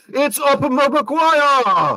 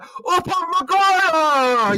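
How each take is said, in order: First: Long, high drawn-out commentator call; imitating a commentator. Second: Very high, slow stretched-out name; commentator yell. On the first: To his co-host, mock French commentator call, slow and high. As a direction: stretch the name out like a French commentator yelling. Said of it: "the commentator going". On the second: Retold or imitated. Retelling the clip, hammed-up commentator yell, very high and slow. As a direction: belt the name like a stunned commentator. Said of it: "he's just like".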